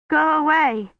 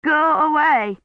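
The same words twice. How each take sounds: First: Higher, shivering go away; a feverish girl pushing a stranger off; frightened plea. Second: Higher and louder, shivering go away; louder frightened plea. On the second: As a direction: push him off harder, with fear. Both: A narrator's reading. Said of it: "her teeth chattering so hard".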